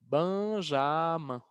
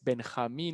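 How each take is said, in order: First: The name is pronounced with French sounds. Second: The name is pronounced with Spanish sounds. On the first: "en uh, francés es Benjamin" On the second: "El mío es Benjamín en español"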